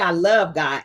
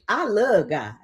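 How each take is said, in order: First: The word love ends with a clear v sound. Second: The word love is clipped to 'luh' without v. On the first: "L O V E" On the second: "L U H"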